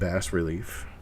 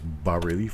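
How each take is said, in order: First: The first word is said with an S sound. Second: The first word is said without an S sound. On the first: The speaker calls it wrong. "It is not bass relief" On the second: The speaker calls it right. "You do not pronounce the S. It is bas relief"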